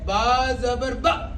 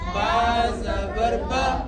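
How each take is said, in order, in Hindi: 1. आख़िरी स्वर झटके से काटा हुआ है। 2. आख़िरी स्वर छोटा और चिकना है। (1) "और झटका क्या है?" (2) "मारूफ किस तरह पढ़ेंगे?"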